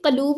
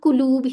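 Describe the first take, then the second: First: The first vowel is a short a. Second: The first vowel is a short u. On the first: The speaker calls it wrong. "कलूब नहीं करना" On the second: The speaker calls it right. "कुलूब ही रहने देना है"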